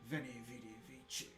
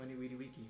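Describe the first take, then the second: First: Each word begins with a V sound. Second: Each word begins with a W sound. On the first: This is the church pronunciation of Latin. "it sounds much more masculine in ecclesiastical Latin" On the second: This is the classical pronunciation of Latin. "Weni Weedy Wiki is how um, Cicero, pardon me, that is how Caesar would have said"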